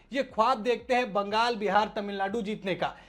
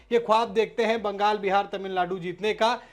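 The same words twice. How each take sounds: The two takes are said the same way.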